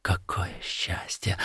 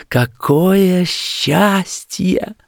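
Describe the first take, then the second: First: Soft whispered wonder; barely voiced, overwhelmed murmur; hushed joy. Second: High, slow, drawn-out rapture; slow blissful exclamation; rapturous joy. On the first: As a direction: whisper it to yourself. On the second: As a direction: stretch each word out, pitched high. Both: A narrator's reading. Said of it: "твердя лишь".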